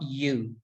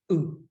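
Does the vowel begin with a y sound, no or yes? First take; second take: yes; no. First: The vowel starts with a y glide. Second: The vowel starts with no y glide. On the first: The speaker calls it wrong. "It's not you, we say it with a Y almost" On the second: The speaker calls it right. "without the Y in the front of it"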